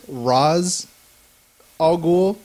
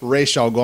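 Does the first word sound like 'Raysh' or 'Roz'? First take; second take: Roz; Raysh. First: The first word is said like 'Roz'. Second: The first word is said like 'Raysh'. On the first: This is the common movie pronunciation. The speaker calls it wrong. "everyone says" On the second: This is the animated series pronunciation. The speaker calls it right. "the actual man goes"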